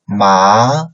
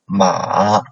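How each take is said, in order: First: The pitch rises from mid to high. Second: The pitch dips low, then rises.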